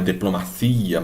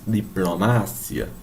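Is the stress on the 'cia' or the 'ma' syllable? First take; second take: cia; ma. First: The stress falls on the syllable 'cia'. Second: The stress falls on the syllable 'ma'. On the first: This is the Portuguese pronunciation. "Não é diplomacia" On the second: This is the Spanish pronunciation. "mas diplomácia"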